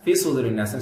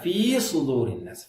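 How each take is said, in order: First: The vowel of fi is held briefly. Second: The vowel of fi is held longer. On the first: The speaker calls it wrong. "ஒன்றரை ஹரக்கால சொல்லுவாங்க" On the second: The speaker calls it right. "இது ரெண்டு ஹரக்கா"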